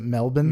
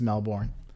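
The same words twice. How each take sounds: First: It is said the Australian way. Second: It is said the American way. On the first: This is the city in Australia. "you're supposed to pronounce it Melbourne" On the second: This is the town in Florida. "we have a Melbourne in Florida spelled the same way, but it's Melbourne"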